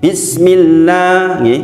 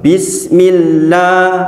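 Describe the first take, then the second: No difference in how they are said.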